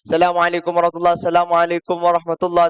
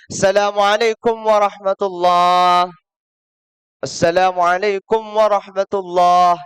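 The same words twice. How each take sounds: First: The two greetings run together without a pause. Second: There is a clear pause between the two greetings.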